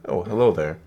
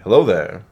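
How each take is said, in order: First: It is said in a plain, ordinary voice. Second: It is said in an Obi-Wan Kenobi impression.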